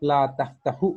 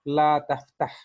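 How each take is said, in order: First: The last word ends with a short u vowel. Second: The last word ends on a bare consonant. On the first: The speaker calls it wrong. "नहीं कहेंगे" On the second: The speaker calls it right. "बल्कि हम कहेंगे"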